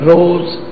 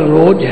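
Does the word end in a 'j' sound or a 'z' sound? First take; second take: z; j. First: The word ends with a 'z' sound. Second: The word ends with a 'j' sound. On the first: "फारसी विच जदों इहदा उच्चारण हुंदा जजे दे पैर विच बिंदी ला के रोज करना" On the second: "लिखिया हर रोज है"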